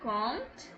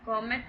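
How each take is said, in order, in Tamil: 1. கடைசி t-க்கு முன் எந்த உயிரெழுத்தும் ஒலிக்கப்படுவதில்லை. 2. கடைசி t-க்கு முன் ஒரு கூடுதல் உயிரெழுத்து ஒலிக்கப்படுகிறது. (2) "காமெட் கிடையாது"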